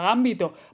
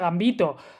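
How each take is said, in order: First: The stress is on the first syllable. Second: The stress is on the second syllable. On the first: The speaker calls it wrong. "no sé por qué se llama Gambito" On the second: The speaker calls it right. "no es esdrújula, esa palabra se pronuncia Gambito"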